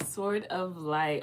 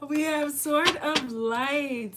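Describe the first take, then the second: First: Said in the usual way. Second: Higher, slow, ringing announcement of Sword; excited card reveal. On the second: Real, not acted. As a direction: unveil the card with delight.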